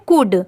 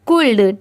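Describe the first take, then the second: First: No L sound is heard before the final D. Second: An L sound is heard before the final D. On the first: The speaker calls it right. "यहाँ पर भी एल letter silent है" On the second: The speaker calls it wrong. "अगर हम उसे pronounce करें C O U L D"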